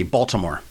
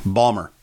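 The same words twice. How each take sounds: First: Said in the usual way. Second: "Balmer", Baltimore squashed to two syllables; local Baltimore pronunciation. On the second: Retold or imitated. Family round the table reads a card, local pronunciation "Balmer". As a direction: say "Balmer" with the middle swallowed. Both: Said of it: "pronounce that word".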